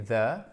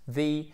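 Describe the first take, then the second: First: "the" said as "thuh", held up; the ordinaire. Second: "the" said as "thee"; the devant voyelle. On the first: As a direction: say "the" with a schwa. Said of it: "devant, vous avez the". (« the » prononcé avec un e muet) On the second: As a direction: give "the" an EE vowel. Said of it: "il se prononce the". (« the » prononcé avec un i) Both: Shown as a demonstration.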